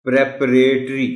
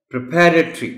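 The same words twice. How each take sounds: First: प्रेपरेटरी with a stressed long pre; प्रेपरेटरी said the mistaken way; wrong pronunciation. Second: प्रिपरेटरी with a short pri; प्रिपरेटरी said correctly; correct pronunciation. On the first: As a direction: show how a beginner misreads प्रेपरेटरी. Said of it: "जिसको नहीं मालूम वो इसको पढ़ेगा". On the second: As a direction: model प्रिपरेटरी with a short first syllable. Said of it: "और वो word है". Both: Shown as a demonstration.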